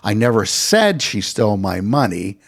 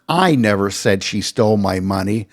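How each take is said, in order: First: The word "never" is stressed. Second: The word "I" is stressed. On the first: The speaker denies ever saying it. "I did say she stole my money" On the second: Someone else said it. "I'm not the one who said she stole my money"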